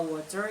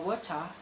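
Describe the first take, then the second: First: Water with a clear American t-flap and r; American pronunciation. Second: Water said wot-cha, no r at the end; British pronunciation. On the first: Teacher demos water in an American accent. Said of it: "pakai American accent". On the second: Teacher demos water in a British accent. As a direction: say water like a Brit, dropping the r. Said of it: "British accent". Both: Shown as a demonstration.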